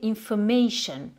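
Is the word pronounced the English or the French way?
English. The ending sounds like English 'shun', not 'sion'. "ça va donner en anglais"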